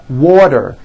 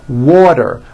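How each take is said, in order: Both takes have the same delivery.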